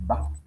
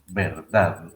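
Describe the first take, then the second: First: The word is cut to one short syllable. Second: The full word is said with final d. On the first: "a veces simplemente decimos va" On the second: "se pronuncia así"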